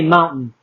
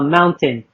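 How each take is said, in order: First: The T sound is dropped. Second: The T sound is clearly pronounced. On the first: This is how Los Angeles speakers say it. "we say mountain" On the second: This is how other states say it. "other states pronounce the T's"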